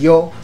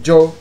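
First: The word begins with a plain y sound. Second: The word begins with a ch-like sound. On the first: This is the usual way of saying it. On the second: This is the Colombian way of saying it.

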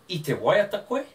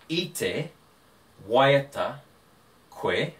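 First: The voice rises at the end like a question. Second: The voice falls at the end like a statement. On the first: It asks whether the listener was singing. "let's change my tone" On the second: It states that the listener was singing. "you were singing"

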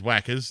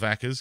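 First: The name is said without a German pronunciation. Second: The name is said with a German pronunciation. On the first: The speaker calls it right. "It is Wackers, because he's not German" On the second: The speaker calls it wrong. "not Wackers"

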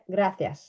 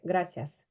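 First: The 'c' is said between the teeth. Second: The 'c' is a plain 's' sound. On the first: This is the pronunciation used in Spain. "Перша між зубами" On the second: This is the Latin American pronunciation. "читається як українське «с»"

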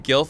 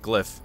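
First: The L sound comes after the vowel. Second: The L sound comes before the vowel. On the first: The speaker calls it wrong. "I called it the GILF" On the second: The speaker calls it right. "the L comes before the Y, so it's glyph"

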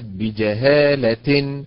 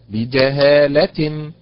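First: The stress falls on a syllable other than 'la'. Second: The stress falls on the syllable 'la'. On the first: It sounds like two acts of ignorance. The speaker calls it wrong. "وليست" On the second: It refers to a single act of ignorance. The speaker calls it right. "فعلا على حركة اللام"

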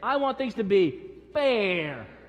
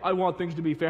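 First: It is said in a whining, complaining voice. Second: It is said in a plain, even voice. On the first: "you got to say it with a little bit of a whine" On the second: "They don't say"

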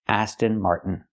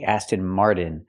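First: The T in 'Martin' is a stopped, unreleased T. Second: The T in 'Martin' is a quick flapped D. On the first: The speaker calls it right. "This is the most common way to pronounce it in America" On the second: The speaker calls it wrong. "We cannot pronounce it with a fast D. We cannot say Aston Martin"

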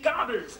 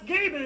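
First: The name is said with German pronunciation. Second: The name is said with American pronunciation. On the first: The speaker calls it wrong. "nicht Gabel" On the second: The speaker calls it right. "der Mann heißt Gabel"

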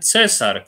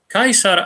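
First: It uses the later medieval Latin pronunciation. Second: It uses the restored classical Latin pronunciation. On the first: Nobody in antiquity said it this way. The speaker calls it wrong. "Cesar to jest łacina średniowieczna" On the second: This is how the ancient Romans said it. The speaker calls it right. "Kaisar, a nie żaden cesar"

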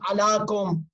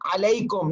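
First: The middle vowel is a plain long 'a'. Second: The middle vowel is the diphthong 'ay'. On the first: The speaker calls it wrong. "not alakum" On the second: The speaker calls it right.

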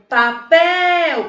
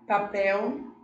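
First: The word is called out loudly, as if far away. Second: The word is said at a plain, normal volume. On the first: "como se ele estivesse bem distante" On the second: "Se eu disser papel, papel, eu não vou descobrir"

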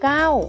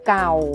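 First: The syllable has a falling tone. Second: The syllable has a low tone. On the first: "เสียงโทใส่รูปวรรณยุกต์โทเก้า" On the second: "เสียงเอกคือเก่า"

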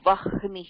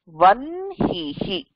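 First: The h sound comes before the n sound. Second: The n sound comes before the h sound. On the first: The speaker calls it wrong. "it is not vahnihi" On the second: The speaker calls it right. "nasal vandu hakara ka apra vandhadhuna modala nasala da pronounce pananam"

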